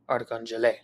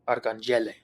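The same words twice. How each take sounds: First: The stress is on the fourth syllable. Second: The stress is on the third syllable. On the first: "if the acute accent mark were over the last E" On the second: "if the acute accent mark were over the first E"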